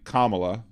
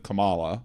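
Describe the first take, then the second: First: The first part sounds like the word comma. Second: The first part does not sound like comma. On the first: The speaker calls it right. "if you can't say Kamala" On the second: The speaker calls it wrong. "instead of Kamala"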